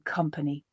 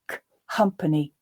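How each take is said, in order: First: The k glides smoothly into the word. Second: A separate k, then an added h sound. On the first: "speeding that up until you eventually get a glide between the two" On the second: "throwing a h sound in there"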